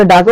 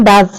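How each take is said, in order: First: Does said with extra weight; emphatic does, as a teacher shows it; stress on does. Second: Said in the usual way. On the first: Shown as a demonstration. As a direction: lean hard on the word does. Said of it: "জোর করে হলে does". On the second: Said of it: "সেটা জোর দিয়ে".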